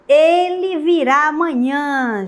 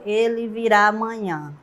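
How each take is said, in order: First: It is said as an emotional exclamation. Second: It is said as a plain statement. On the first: The speaker shows happy feelings about it. "A exclamativa, né, o estado emotivo" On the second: The speaker simply affirms a fact. "Eu iria afirmar"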